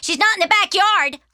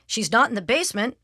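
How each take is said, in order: First: Put-on high, loud kid's yell; piping, full-voiced call; little sister calling out. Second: Mildly raised report, near usual pitch; understated dad's call; father calling. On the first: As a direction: shout the search report across the house. Little sister yelling search report. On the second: Acted. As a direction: call it over without much force. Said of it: "called Father".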